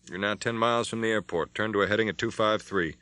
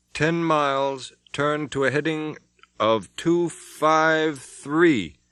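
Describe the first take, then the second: First: Said in the usual way. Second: Slow, calm radar report. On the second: Acted. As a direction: read it out very slowly and calm. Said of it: "the calm voice of the radar operator".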